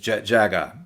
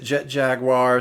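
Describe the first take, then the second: First: The name is said with Japanese pronunciation. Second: The name is said with English pronunciation. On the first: "like it is pronounced in Japanese" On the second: "some people pronounce it"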